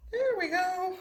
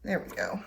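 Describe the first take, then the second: First: High, lilting There we go; playful high echo of There we go; sing-song high. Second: Said in the usual way. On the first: Acted. Repeats the phrase differently.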